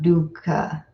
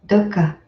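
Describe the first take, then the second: First: The first vowel is long, unlike 'put'. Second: The first vowel is short, like 'put'. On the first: The speaker calls it wrong. "It's not dukkha" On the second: The speaker calls it right. "so it's dukkha, like put"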